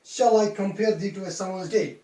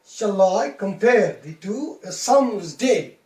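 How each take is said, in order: First: "Shall I compare thee to a summer's day?" read straight through, no metrical beat; non-native flat reading. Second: "Shall I compare thee to a summer's day?" slow, with I, PARE, TO, SUM, DAY punched louder; stress every second syllable. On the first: Teacher showing an unmetrical non-native reading, even stress on "Shall I compare thee to a summer's day?". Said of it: "how a non-native English speaker reads".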